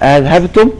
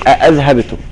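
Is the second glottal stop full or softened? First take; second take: softened; full. First: The second glottal stop is softened and eased. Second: The second glottal stop is fully pronounced. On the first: "تسهيل" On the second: "وتحقيق"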